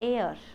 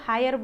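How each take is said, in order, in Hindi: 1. इसमें h silent है और यह 'air' जैसा सुनाई देता है। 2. यह h से शुरू होता है और 'hire' जैसा सुनाई देता है। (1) "इसका ऐसा साउंड निकालो जो तुम हवा को इंग्लिश में बोलते हो" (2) "कोई इसको हायर बोल रहा होगा"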